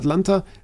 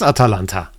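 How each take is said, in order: First: The name is said with three syllables. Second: The name is said with four syllables. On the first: The speaker calls it wrong. "I was confused by that" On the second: The speaker calls it right. "It is Atalanta"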